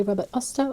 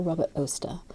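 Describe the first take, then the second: First: Oster said AH-ster, open ah vowel; Robert AH-ster, ah sound; first pronunciation. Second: Oster said OH-ster, long oh vowel; Robert OH-ster, oh sound; second pronunciation. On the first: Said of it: "Do people say Robert Oster or". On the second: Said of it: "or Robert Oster". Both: Shown as a demonstration.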